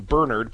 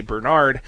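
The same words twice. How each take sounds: First: Bernard stressed as BER-nerd; stress on first syllable. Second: Bernard stressed as ber-NARD; stress on second syllable. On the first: Host explaining the saint's name, first-syllable stress on Bernard. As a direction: say Bernard with the accent up front, second syllable reduced. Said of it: "putting the accent on the first syllable". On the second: Host contrasting the dog's name, second-syllable stress on Bernard. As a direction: say Bernard like the dog breed, accent on NARD. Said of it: "because if you say Bernard". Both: Shown as a demonstration.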